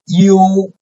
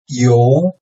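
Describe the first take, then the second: First: The pitch stays high and level. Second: The pitch rises from mid to high.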